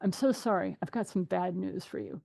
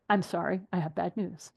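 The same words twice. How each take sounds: First: Soft, sorry tone to brace them; softly breaking bad news to a client; gentle bad news. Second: Breaking bad news to a no-show; gentle bad news. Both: Shown as a demonstration. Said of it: "That's the way you phrase it".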